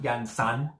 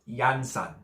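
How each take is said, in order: First: The stress is on the second syllable. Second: The stress is on the first syllable. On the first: The speaker calls it wrong. "It's not Yansan" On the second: The speaker calls it right. "The emphasis is on the the first A"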